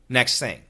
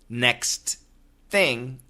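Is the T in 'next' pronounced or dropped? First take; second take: dropped; pronounced. First: The T at the end of next is dropped. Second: The T at the end of next is pronounced. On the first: "even though we say next thing" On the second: "we have no problem understanding next thing"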